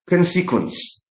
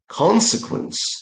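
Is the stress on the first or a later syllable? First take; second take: later; first. First: The stress is on a later syllable. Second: The stress is on the first syllable. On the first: The speaker calls it wrong. "I often hear how people say this word as consequence" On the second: The speaker calls it right. "The stress should go to the first syllable"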